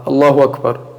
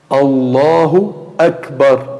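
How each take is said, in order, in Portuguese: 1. A hamza antes de 'Akbar' é omitida. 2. A hamza antes de 'Akbar' é pronunciada. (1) "o Hamza ele não pronuncia" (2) "dessa forma"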